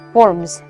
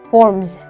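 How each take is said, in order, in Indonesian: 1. Kata itu diakhiri dengan bunyi z. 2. Kata itu diakhiri dengan bunyi z.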